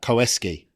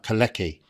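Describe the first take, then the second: First: The name sounds like Koeski. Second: The name sounds like Kalecki. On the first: This is how the commentators said it. The speaker calls it right. "the commentators are going Koeski" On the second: This is how the written name looks. The speaker calls it wrong. "It looks like his name's like Kalecki, but you don't pronounce it like that"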